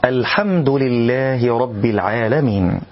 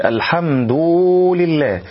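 First: "الحمد" ending in a brief "du", straight into lillah; measured, slow recital keeping the u of "الحمد" short; short, correct damma. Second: "الحمد" ending in a long drawn "duuu"; exaggerated damma. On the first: Teacher gives learners the correct form, damma kept short. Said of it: "والصواب أن نقول". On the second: Teacher warns against the error, damma stretched into waw. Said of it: "لا أن نقول: ... حتى لا نأتي بواو". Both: Shown as a demonstration.

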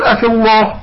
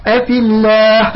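First: "الله" with dark, rounded "lloh"; wrongly heavy lam. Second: "الله" with thin, front "llaah"; slow "أفي الله", keeping the lam of "الله" light. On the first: Teacher shows what not to say, heavy "الله". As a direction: thicken "الله" in "أفي الله" toward "loh". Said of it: "لا نقول". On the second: Teacher models correct lam after kasra, thin "الله". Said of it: "قبل اللام مكسور". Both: Shown as a demonstration.

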